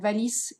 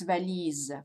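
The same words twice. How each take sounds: First: The middle consonant is a hissing S sound. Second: The middle consonant is a buzzing Z sound. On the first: The speaker calls it wrong. "it's not valise" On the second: The speaker calls it right. "with a Z sound"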